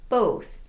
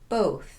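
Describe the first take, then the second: No difference in how they are said.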